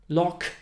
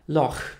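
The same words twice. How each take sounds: First: The final sound is a hard k. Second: The final sound is a ch-like fricative. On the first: "Te słowa można też przeczytać przez K" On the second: "gdzie CH czytamy jako CH"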